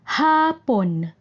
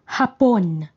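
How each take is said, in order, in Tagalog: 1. Nasa unang pantig ang diin. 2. Nasa ikalawang pantig ang diin. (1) "Bigkas malumanay o malumay at may diin sa unang pantig" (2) "Bigkas na mabilis at may diin sa ikalawang pantig"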